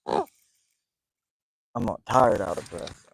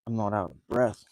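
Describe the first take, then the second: First: Slow and deliberate, leaning on "tired"; stress on tired. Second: Said in the usual way. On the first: Real, not acted. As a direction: draw out "tired" to clear it up.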